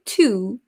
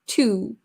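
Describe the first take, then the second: First: The word has a full, tense oo vowel. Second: The word has a full, tense oo vowel.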